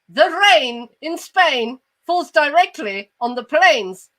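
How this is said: It is said in a posh accent. "the posh guy comes in and he goes"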